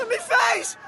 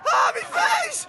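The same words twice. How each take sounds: First: Higher, startled cry of pain; a boy just hit, crying out. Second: Much higher, slow wailing cry of pain; a hurt boy wailing about his face; anguished wail. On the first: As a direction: yelp it as the pain hits. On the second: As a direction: draw it out in anguish. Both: Acted. Wounded in the face.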